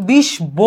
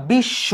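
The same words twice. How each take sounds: First: বিশ ব spelled out as 'bish bo', with the ব sounded; wrong pronunciation. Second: বিশ্ব with a doubled sh and no b, 'bishsho'; correct pronunciation. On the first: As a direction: split it into বিশ and a separate ব. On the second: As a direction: hold the শ twice in বিশ্ব. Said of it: "তালবসাটাকে দুইবার উচ্চারণ করছো". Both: Shown as a demonstration.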